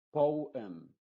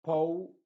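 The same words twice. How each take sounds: First: "poem" as pow-em, falling close. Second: "Poem" as po-em, rising; two-syllable poem. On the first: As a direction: slide po into em, finished. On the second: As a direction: split po and em clearly. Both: Shown as a demonstration. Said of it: "la E se están pronunciando de forma independiente".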